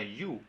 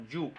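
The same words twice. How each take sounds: First: "yu" with a soft gliding Y, like "ee-oo" in one syllable; correct glide Y. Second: "yu" with a hard Spanish Y, close to "ju"; wrong hard Y. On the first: Teacher showing the right pronunciation, correct glide Y. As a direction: say "yu" with no buzz on the Y. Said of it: "Se pronuncia yu, no yu". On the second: Teacher showing what to avoid, wrong hard Y. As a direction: say "yu" starting on a buzzed J-like Y. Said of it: "no yu". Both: Shown as a demonstration.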